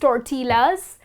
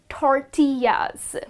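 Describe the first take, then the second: First: The double L is said as an L sound. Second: The double L is not said as an L sound. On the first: The speaker calls it wrong. "Looking at the L's over here, you will tend to pronounce it as tortillas, but that's incorrect" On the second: The speaker calls it right. "this delicious Mexican dish is pronounced as tortillas"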